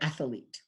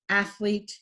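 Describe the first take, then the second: First: An extra vowel is added in the middle. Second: It has two syllables with no extra vowel.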